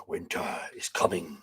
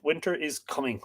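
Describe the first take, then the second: First: Low, hushed and much softer, like a doom-laden prophecy; ominous catchphrase. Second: Said in the usual way. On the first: Pretend. Host echoes the famous line to viewers as a low, hushed warning. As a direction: drop into a grim, hushed warning.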